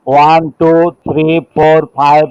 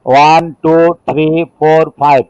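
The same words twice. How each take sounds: The two takes are said the same way.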